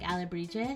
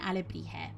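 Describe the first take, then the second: First: The J is an English J sound. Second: The J is a Spanish throaty H sound.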